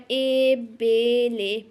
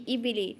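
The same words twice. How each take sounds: First: "ए बे ले" dragged out slowly, vowels opened to long e; drawn-out, wavy misreading. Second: Said in the usual way. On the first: Shown as a demonstration. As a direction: show the wrong reading by stretching each syllable of "ए बे ले". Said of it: "थोड़ा खींच के लहरा के नहीं पढ़ना". ("ए बे ले" को खींच के, लहरा के) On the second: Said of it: "इसको ऐसे नहीं पढ़ना".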